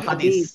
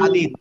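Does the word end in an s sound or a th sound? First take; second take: s sound; th sound. First: The word ends in an s sound. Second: The word ends in a th sound. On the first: The speaker calls it wrong. "Not হাদিস" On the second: The speaker calls it right. "মনে রাখতে হবে এখন থেকে"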